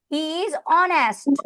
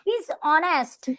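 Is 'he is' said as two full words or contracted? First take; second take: full; contracted. First: He and is are said as two full words. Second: He and is are joined into one syllable.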